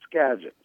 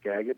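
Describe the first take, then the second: First: The G is said as a soft G. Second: The G is said as a hard G. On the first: The speaker calls it right. "it's actually pronounced Skagit. It's a soft G" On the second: The speaker calls it wrong. "It looks like Skagit"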